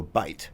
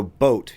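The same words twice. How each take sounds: First: "boat" said as "bite"; Australian-style boat, pronounced "bite"; O turned to I. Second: Said in the usual way. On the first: Shown as a demonstration. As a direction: swap the O for a long I, "bite". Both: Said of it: "hard O is a hard I".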